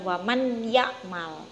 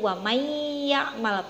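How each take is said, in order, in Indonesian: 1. Bunyi n tetap jelas sebelum y. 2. Bunyi n menyatu dengan y yang mengikutinya. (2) "bunyinya masuk ke huruf selanjutnya"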